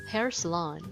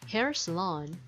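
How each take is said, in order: No difference in how they are said.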